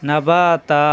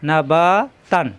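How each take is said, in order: First: The word ends with a lengthened a vowel. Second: The word ends with an n sound. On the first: The reciter stops at this point. "থামলে না বা তা" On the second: The reciter continues into the next verse. "যদি না থামি সেক্ষেত্রে না বা তান পরে অন্য আয়াতে চলে যেতে হবে"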